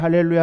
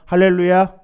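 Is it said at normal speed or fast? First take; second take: fast; normal. First: It is said quickly. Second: It is said at a normal pace.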